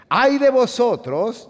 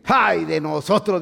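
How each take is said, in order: First: High, slow, loud wail of "Ay de vosotros"; Philistines' hammed-up cry of dread; frightened wail. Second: Slow, mildly fearful lament; a light touch of alarm; frightened Philistines. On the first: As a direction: cry it out in mock terror. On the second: Acted. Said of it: "dijeron aquellos".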